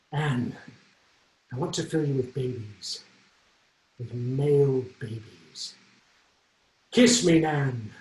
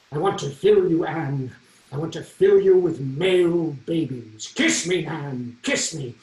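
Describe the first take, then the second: First: Slow, halting, hesitant love line with long pauses; nervous stalling. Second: A touch of grand Henry the Eighth, louder and slower; kingly stage lines. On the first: Retold or imitated. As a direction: stall for time, scared of the kiss. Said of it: "I was just horrified". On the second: Acted. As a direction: declaim it like a lusty king on stage. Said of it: "these incredibly provocative lines".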